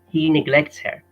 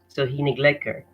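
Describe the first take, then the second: First: The t and h sounds are clearly pronounced. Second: The t and h sounds are dropped. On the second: "he drops or miss misses out the T and misses out the H"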